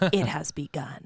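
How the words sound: It is said in a deep, low voice.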